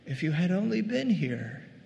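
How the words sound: The voice sounds soft and tender. She grieves while still trusting him. "there's a tenderness in her voice"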